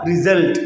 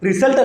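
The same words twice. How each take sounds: First: The middle consonant is a buzzing z sound. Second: The middle consonant is a hissing s sound. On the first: The speaker calls it right. "z sound" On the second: The speaker calls it wrong. "അല്ല"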